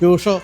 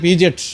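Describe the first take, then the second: First: The name is said as pew-sho. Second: The name is said as pee-jet. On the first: The speaker calls it right. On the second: The speaker calls it wrong.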